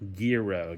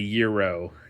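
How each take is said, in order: First: The word starts with a hard G sound. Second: The word starts with a Y sound. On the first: The speaker calls it right. "Got to pronounce the G" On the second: The speaker calls it wrong. "It's not a euro"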